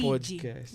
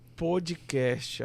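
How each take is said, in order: First: It is pronounced with an English accent. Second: It is pronounced with a Portuguese accent. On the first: The speaker calls it right. "tem que fazer com a pronúncia" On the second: The speaker calls it wrong. "você está falando podcast"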